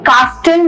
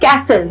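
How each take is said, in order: First: The t sound in the middle is pronounced. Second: The t sound in the middle is silent. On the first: The speaker calls it wrong. "कास्टल नहीं बोलेंगे उसको, that is incorrect" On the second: The speaker calls it right. "तो यहाँ पे टी जो है वो silent रहता है"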